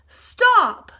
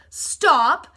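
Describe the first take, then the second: First: The word is said loudest. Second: The word is said less loudly.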